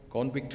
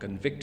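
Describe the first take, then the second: First: The stress is on the first syllable. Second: The stress is on the second syllable. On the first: It is used as a noun. "Convict for noun" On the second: It is used as a verb. "convict for verb"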